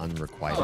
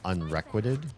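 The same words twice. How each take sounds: First: The middle sounds like the word 'required'. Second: The middle sounds like the word 'requisite'. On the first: The speaker calls it right. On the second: The speaker calls it wrong.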